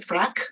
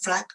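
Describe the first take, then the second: First: The word ends with a voiceless k sound. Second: The word ends with no final consonant. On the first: "replace with the um with its voiceless partner" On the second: "simply drop the sound"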